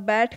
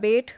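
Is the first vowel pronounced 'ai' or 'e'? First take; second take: ai; e. First: The vowel is the open sound 'ai'. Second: The vowel is the closer sound 'e'. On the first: This is the standard form. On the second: This is the Khari Boli dialect form.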